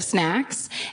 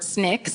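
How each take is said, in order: First: The vowel sounds like the 'a' in 'sack'. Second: The vowel sounds close to the 'i' in 'sick'. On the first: "instead of" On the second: "people here say the word snicks"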